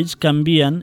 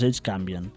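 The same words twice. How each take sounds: First: The stress falls on the syllable 'vi'. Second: The stress falls on the syllable 'can'. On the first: The speaker calls it right. "I ells canvien" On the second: The speaker calls it wrong. "i no pas ells canvien"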